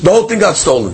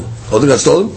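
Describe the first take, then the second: First: Said in the usual way. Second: Questioning repeat. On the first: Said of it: "he comes along and says". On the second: Shown as a demonstration. Teacher repeats the guard's claim back as a question, rising on stolen. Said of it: "No Shivua".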